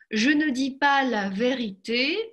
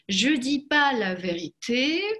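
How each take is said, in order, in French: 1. Le mot ne se prononce devant dis. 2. Le mot ne n'est pas prononcé devant dis. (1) "То же самое в отрицании" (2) "буду опускать «но», потому что в отрицании «но» опускается в разговорной речи"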